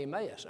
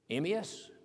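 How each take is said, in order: First: Emmaus said "em-AY-us", long ay in the middle; other Emmaus. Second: Emmaus said "EM-ee-us", short ee in the middle; correct Emmaus. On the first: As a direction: Emmaus pronounced em-ay-us, the middle vowel stretched. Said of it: "If I say Emmaus". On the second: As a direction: Emmaus pronounced em-ee-us, stress on the first syllable. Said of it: "I'm right". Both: Shown as a demonstration.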